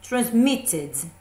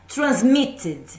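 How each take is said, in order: The two takes are said the same way.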